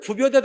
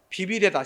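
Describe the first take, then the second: First: The first syllable is said with a rounded 'u' vowel. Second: The first syllable is said with an 'i' vowel. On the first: The speaker calls it wrong. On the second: The speaker calls it right.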